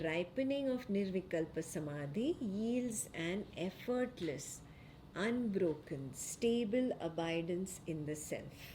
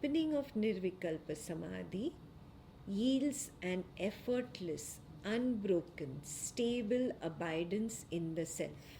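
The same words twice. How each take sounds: Both takes have the same delivery.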